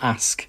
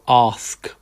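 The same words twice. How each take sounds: First: It is said in a non-southern accent. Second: It is said in a southern London accent. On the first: "not ask" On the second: "you Londoners down south go ask"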